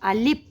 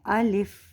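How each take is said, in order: First: The final sound is a p, not f. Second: Both vowels are short and it ends in f. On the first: The speaker calls it wrong. "फ़ा की जगह हम क्या कहते हैं? पा कह देते हैं" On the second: The speaker calls it right. "इसकी सही अदायगी जो है वो है अलिफ"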